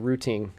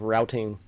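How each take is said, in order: First: It is said with a British pronunciation. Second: It is said with an American pronunciation. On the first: "he's telling me to say routing" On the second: "American English version of it"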